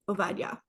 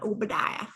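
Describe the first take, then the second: First: The second consonant is a v sound. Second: The second consonant is a b sound. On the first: The speaker calls it right. "in Hebrew, the B's sound like V's. That's how you say it" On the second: The speaker calls it wrong. "Not Obadiah"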